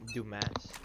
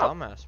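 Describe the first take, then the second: First: The first syllable has a long 'oo' vowel. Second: The first syllable has a short 'uh' vowel. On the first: The speaker calls it right. "It's pronounced Doom" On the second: The speaker calls it wrong. "No, pronounce it right"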